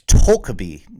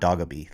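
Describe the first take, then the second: First: The name is said with a Korean-style pronunciation. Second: The name is said with an anglicized pronunciation. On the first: The speaker calls it right. "It's Tokaby" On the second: The speaker calls it wrong. "people call it the Doggaby, but it's not Doggaby"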